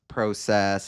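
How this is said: It is said with a Toronto accent. "they do have a uh, inflection to their voice"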